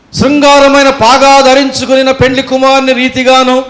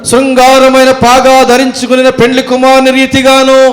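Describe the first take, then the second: The two takes are said the same way.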